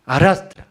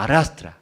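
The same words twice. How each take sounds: First: Arrastra punched high and loud on the last repeat; dragging stress. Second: Said in the usual way. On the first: Shown as a demonstration. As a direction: say arrastra louder and higher, as if hauling. (arrastra enfático, alto y fuerte) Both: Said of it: "Por eso arrastra".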